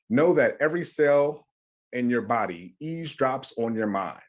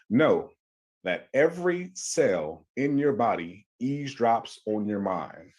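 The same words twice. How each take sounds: First: It is said at a normal pace. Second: It is said slowly and deliberately.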